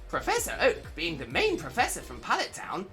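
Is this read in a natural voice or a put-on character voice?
character voice. It is read in a put-on elderly character voice.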